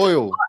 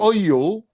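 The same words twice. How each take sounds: First: The word is said as one syllable. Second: The word is stretched into two syllables. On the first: The speaker calls it right. "It's oil" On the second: The speaker calls it wrong. "You're putting an extra sound in there. It's not oil"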